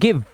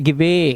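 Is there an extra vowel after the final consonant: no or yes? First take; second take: no; yes. First: The word ends on the v sound. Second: An extra vowel sound follows the final v. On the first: The speaker calls it right. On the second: The speaker calls it wrong.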